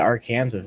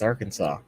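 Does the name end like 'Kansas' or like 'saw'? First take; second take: Kansas; saw. First: The name ends sounding like 'Kansas'. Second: The name ends sounding like 'saw'. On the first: The speaker calls it wrong. "Why would anyone say Arkansas?" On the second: The speaker calls it right. "It's Arkansas"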